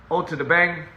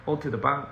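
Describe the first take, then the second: First: BANG with a front "a", as in "cat"; first pronunciation try. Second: BANG with an open "ah" vowel; corrected pronunciation. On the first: Trying to recall a foreign greeting, first pronunciation try. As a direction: say BANG to rhyme with "hang", higher and louder. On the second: Settling on a remembered foreign greeting, corrected pronunciation. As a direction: say BANG as "bahng". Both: Real, not acted.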